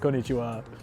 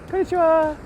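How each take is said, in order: First: The voice is pitched low. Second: The voice is pitched high. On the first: The speaker calls it right. "Pitch goes down, I sound manly in Japanese" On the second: The speaker calls it wrong. "pitch also seems to go up with Japanese"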